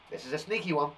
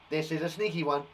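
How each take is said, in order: Both takes have the same delivery.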